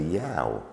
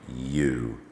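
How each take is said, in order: First: The vowel sounds like 'ow' in cow. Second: The vowel is a long 'oo' sound. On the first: The speaker calls it wrong. "strictly speaking, we should say yow" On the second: The speaker calls it right. "the O U simply makes the long U sound"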